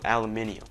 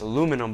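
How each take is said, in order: First: The word is said as aluminium. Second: The word is said as aluminum. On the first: "I'm gonna call it aluminium" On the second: "It's probably pronounced aluminum"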